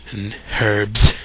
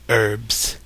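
First: "herbs." with a clear h sound, British style; "herbs." with a breathy h at the start. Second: "herbs." said with a silent h, like 'erbs'; "herbs." as 'urbs', no h; own American herbs. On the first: Retold or imitated. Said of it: "Maybe some British people added". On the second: Shown as a demonstration. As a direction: drop the h in "herbs.". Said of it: "Say the following words".

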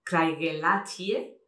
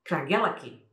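First: CRAIGELLACHIE as slow "krai-ge-LA-chee-eh"; every letter of CRAIGELLACHIE sounded; read as spelt. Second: CRAIGELLACHIE as "kra-GEL-a-kee"; correct pronunciation. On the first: Retold or imitated. Showing a painful first attempt, "krai-ge-LA-chee-eh". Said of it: "intentar pronunciar la primera". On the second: Shown as a demonstration. Teacher corrects it, "kra-GEL-a-kee". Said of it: "es Craigellachie".

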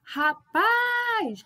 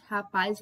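First: Rapaz with PAZ high and held long; called out, final syllable stretched. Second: Said in the usual way. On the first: Shown as a demonstration. Teacher gives an oxytone example, calling Rapaz with a high, long PAZ. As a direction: call out Rapaz, lifting and dragging the last syllable. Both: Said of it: "como se eu estivesse chamando a pessoa".

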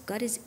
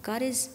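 The two takes are said the same way.

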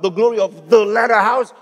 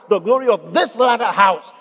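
First: "the" held up as the wrong word, pitch rising at the end; stress on THE. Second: "this" punched, falling away to the end; stress on THIS. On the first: Preacher rejecting the misquoted verse, stress on "the". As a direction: lean on "the", leave it hanging for contrast. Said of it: "He is not talking about". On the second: Preacher giving the verse correctly, stress on "this". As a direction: land hard on "this" as the correct word. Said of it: "I emphasized the word "this". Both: Shown as a demonstration.

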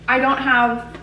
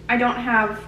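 Both takes have the same delivery.

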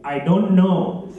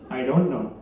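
First: DON'T KNOW stretched out very slowly; slow repeat. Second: Said in the usual way. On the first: Acted. Caller repeats for the phone system, slow and deliberate. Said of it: "Please say again". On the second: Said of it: "Please say yes, no, or I don't know".

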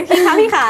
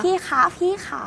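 First: Louder, higher "พี่คะ พี่ขา", a hammed-up copy; mock-sweet coaxing try; honeyed voice. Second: Sweet, coaxing "พี่คะ พี่ขา", pitched up; honeyed voice. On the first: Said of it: "ทำยังไงนะ ไหนๆ บอกดิ". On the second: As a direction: coo it sweetly to win him over. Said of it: "ทำเสียงหวานๆ". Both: Shown as a demonstration.

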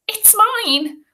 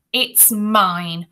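First: Very high, small squeaky voice; thin, high-pitched claim; faint boy's protest. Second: Firm claim near normal pitch; self-satisfied bully taking possession; bully's possessive claim. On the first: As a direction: pipe it up feebly as a little boy. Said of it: "Ruskin said faintly". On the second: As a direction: claim it firmly, leaning on MINE. Bully claims medal as his own. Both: A narrator's reading.

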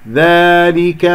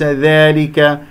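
First: ذلك with a pure open alef; clean, held alef in ذلك; correct vowel. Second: ذلك with the alef tilted toward "ey"; wrongly bend the long a in ذلك; faulty, leaning alef in ذلك; mistaken vowel. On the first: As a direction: slowly open the long a in ذلك. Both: Shown as a demonstration. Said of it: "وليس ذلك".

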